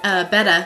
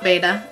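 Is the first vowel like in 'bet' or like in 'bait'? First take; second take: bet; bait. First: The first vowel sounds like in 'bet'. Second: The first vowel sounds like in 'bait'. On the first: The speaker calls it right. "It's actually B-E-T-T-A" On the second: The speaker calls it wrong. "not beta, as most people think"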